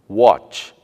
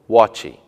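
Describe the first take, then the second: First: The word ends on its final consonant sound. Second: An extra 'ee' vowel follows the final consonant. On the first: The speaker calls it right. "e nem em palavras terminadas em consoantes" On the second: The speaker calls it wrong. "e não"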